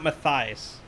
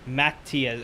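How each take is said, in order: First: The middle consonant is a soft 'th' sound. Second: The middle consonant is a plain 't' sound. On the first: This is not the person's real name. The speaker calls it wrong. "his name is not Matthias" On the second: This is how the person's name is really said. The speaker calls it right. "It's like Matthias or Matthias or Matthias. It's it's basically Matthias, but take out the H"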